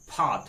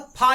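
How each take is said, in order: First: फा said as fa, lip friction; फा as ज़ेर fa, ऐसे फ़ा. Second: फा with an aspirated ph; फा as plain Hindi pha. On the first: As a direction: breathe फा out as fa. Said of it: "थोड़ा सा friction के तहत बोलना होगा". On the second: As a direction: say फा as ordinary pha. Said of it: "फा, ऐसे बोलते हैं". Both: Shown as a demonstration.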